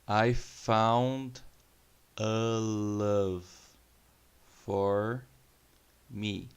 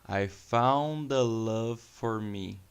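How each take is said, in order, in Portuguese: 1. A frase é falada devagar e com cuidado. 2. A frase é falada rápido, com as palavras ligadas. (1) "bem vagarosamente para que vocês possam perceber a pronúncia" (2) "uma vez veloz para vocês pegarem as conexões de uma palavra na outra"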